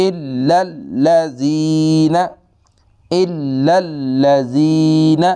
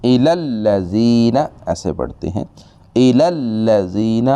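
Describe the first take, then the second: First: الا الذین with both shaddas, slow and chanted; correct recitation. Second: الا الذین skipping the first shadda; wrong recitation. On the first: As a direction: hold the lam, then flow on. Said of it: "دونوں شد پڑھنی ہے". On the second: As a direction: read it the common wrong way. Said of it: "یہ غلط طریقہ ہے". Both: Shown as a demonstration.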